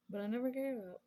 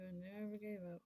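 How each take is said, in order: First: Loud, high, with weight on "gave"; "I never gave up" said louder and higher, stressing "gave"; emphatic declaration. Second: Said in the usual way. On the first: Real, not acted. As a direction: proclaim it with pride.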